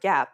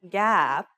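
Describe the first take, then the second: First: The vowel is short and normal. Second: The vowel is drawn out long. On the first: "say the word gap normally" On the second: "lengthen the vowel"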